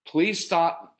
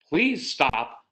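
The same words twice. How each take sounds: First: Curt, higher-pitched request; jerky plea. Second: Slow, drawn-out sugary request; really sweet. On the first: Parent telling a child to stop, slightly jerky. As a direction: say it a bit jerkily. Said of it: "I didn't mean to say it like that". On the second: Parent asking a strong-willed child to stop, syrupy sweet. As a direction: stretch it out sweetly. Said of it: "do not use the really sweet tone". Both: Shown as a demonstration.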